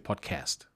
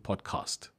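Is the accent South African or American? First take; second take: American; South African. First: It is said in an American accent. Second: It is said in a South African accent.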